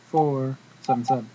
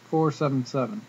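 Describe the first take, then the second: No difference in how they are said.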